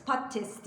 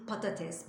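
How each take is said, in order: First: "patates" with a syllable swallowed, "pattes"; the common mistake, "pattes"; wrong pronunciation. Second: "patates" with every letter said, "pa-ta-tes"; the right way, all three syllables; correct pronunciation. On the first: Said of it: "Harfler yutulabiliyor". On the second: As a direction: say "patates" just as written. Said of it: "yazıldığı gibi okunuyor". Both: Shown as a demonstration.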